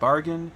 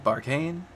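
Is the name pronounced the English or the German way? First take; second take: English; German. First: The name is pronounced the English way. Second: The name is pronounced the German way.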